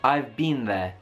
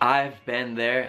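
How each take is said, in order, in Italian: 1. Si pronuncia con un accento britannico. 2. Si pronuncia con un accento americano. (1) "loro dicono I've been there" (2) "mentre io dico been. Tipo"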